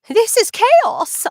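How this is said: It is yelled with frantic energy. Madness is really happening. "I have to yell it out"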